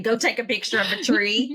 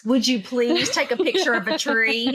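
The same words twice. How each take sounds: First: Plain, direct order without softening; blunt. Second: Polite customer-service request, lilting up at the end; Harvard voice. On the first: Retold or imitated. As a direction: give it as a matter-of-fact instruction. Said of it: "instead of saying". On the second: Pretend. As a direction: ask it sweetly, like customer service. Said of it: "you have to put the Harvard voice on".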